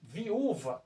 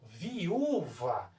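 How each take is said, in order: First: Said in the usual way. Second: "viúva" drawn out very slowly, vi, ú, va; separação silábica. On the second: Shown as a demonstration. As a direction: stretch "viúva" by syllables with a strong, long ú. ("viúva" bem devagar, vi - ú - va, com o ú forte) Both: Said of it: "quando eu pronuncio".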